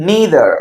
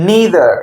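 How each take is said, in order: The two takes are said the same way.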